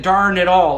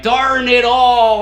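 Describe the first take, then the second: First: Said in the usual way. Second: "Darn it all" stretched slow, higher and louder like a cheesy ad actor; milk "Darn it all" as an over-the-top sitcom groan, slow and loud; hammed-up disappointment. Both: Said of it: "everybody loved the way I said".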